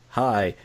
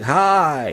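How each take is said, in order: First: It is said calmly with low energy. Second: It is said loudly with high energy. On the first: "I'm just laid back" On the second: "you're more high energy"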